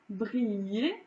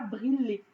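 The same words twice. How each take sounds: First: The double L sounds like a Y glide. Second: The double L sounds like a plain L. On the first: The speaker calls it right. "vous entendez pas" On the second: The speaker calls it wrong. "vous ne prononcez pas briller"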